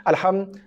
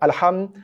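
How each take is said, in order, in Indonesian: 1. Vokal awal dipotong jadi setengah harakat. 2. Vokal awal dipotong jadi setengah harakat.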